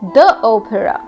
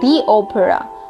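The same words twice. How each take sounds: First: The word 'the' is said as 'thuh'. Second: The word 'the' is said as 'thee'. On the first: The speaker calls it right. "it will be the opera" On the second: The speaker calls it wrong. "not the opera"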